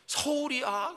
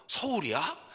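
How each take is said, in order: First: Much higher, loud thrilled question; mother on the phone, thrilled her son is in town; overjoyed squeal. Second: Higher, louder delighted question; mother brightening at the news; an old mother suddenly lively on the phone; suddenly perked up. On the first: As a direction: act out the mother's burst of joy. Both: Retold or imitated. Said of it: "확 바뀌어요".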